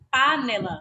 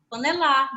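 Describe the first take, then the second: First: The stress is on the first syllable. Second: The stress is on the last syllable. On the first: "eu vou chamar a palavra de panela" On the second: "se for lá, eu vou chamar a palavra de panelar"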